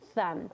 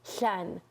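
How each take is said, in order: First: The tongue pushes forward, giving a th sound. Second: Air escapes out the side, giving a slushy sound. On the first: "the front lisp, the tongue is coming out past your teeth" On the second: "there's a turbulence and an airflow out the side"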